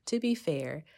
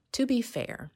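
First: Said in the usual way. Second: High, loud lift on "to be fair"; playful interjection. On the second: Real, not acted. Interrupts herself, then laughs and restarts.

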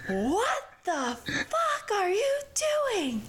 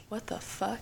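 First: High, drawn-out mock screech; mock furious mom. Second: Soft, under-the-breath mock disbelief; hushed reaction. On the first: Mom catches girls climbing in, mock shrieking. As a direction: imitate a mom catching sneaking kids, stretched high. Voicing the mother catching them. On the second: Storyteller spots a shadow at the window, hushed.

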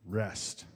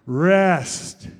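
First: Low, soft REST; subdued repeat. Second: Loud, drawn-out REST; loud group call-out. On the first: Preacher repeating the topic word after the congregation, REST low and subdued. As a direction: drop REST right down, low and quiet. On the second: Leading the congregation to say the topic word on three, REST loud and drawn out. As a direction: call out REST big and long. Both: Shown as a demonstration.

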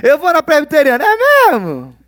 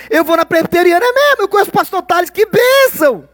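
First: Mock churchgoer. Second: High, bright fake churchy enthusiasm; overly sweet churchgoer imitation; mock gushing churchgoer. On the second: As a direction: gush like a pious church member showing off. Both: Mimicking churchgoer small talk.

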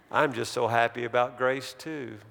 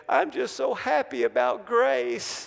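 First: Said in the usual way. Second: Much higher-pitched imitation of a wailing boy; mock tearful wail. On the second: Crying boy answering his dad, mock wail. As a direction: act out a crying child, pitched way up. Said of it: "the kid just started screaming louder and louder".

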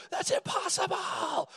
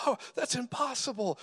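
First: Very high, drawn-out mock shriek; hammed-up squeal of amazement, slow and stretched, no real volume; mock hysterical disbelief. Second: Mock disbelief. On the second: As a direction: imitate an incredulous onlooker in a high voice. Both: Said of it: "It's their unbelief that says".

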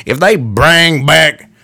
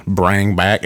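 First: Put-on slow, drawn-out Southern American accent. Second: Said in the usual way. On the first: Vlogger slipping into a Southern accent mid-thought, slow Southern drawl. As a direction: slip into a Southern drawl on the words. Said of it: "I just automatically went Southern on that".

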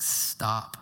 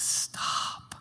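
First: A hushed, tender Stop; whispered stop. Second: Soft breathy stop, barely voiced; a hushed, tender Stop; whispered stop. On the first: Retold or imitated. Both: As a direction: hush them gently with the word Stop. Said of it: "Paul's like".

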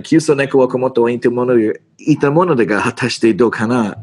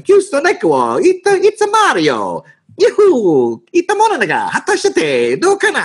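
First: Fast, rattled-off Japanese gangster slang; Yakuza slang Japanese. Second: Very high, cartoonish Italian-accented Japanese; weird Italian-sounding accent. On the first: Shown as a demonstration. Actor shows the line as finally learned, fast Yakuza Japanese. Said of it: "you have to say it like". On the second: Actor's first botched take of the Japanese line, exaggerated Italian accent. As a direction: butcher the Japanese with a sing-song Italian lilt. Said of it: "I was doing this weird accent".

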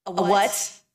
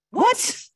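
First: A light curious rising question; mild puzzled question. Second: Shrill high startled cry, much louder; alarmed cry. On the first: Homer asks his friend what a chrysalis is: mildly puzzled. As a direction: ask gently, not quite understanding. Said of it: "said Alex". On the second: Homer cries out, shocked by the new creature: a high startled cry. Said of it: "cried Homer". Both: Acted.

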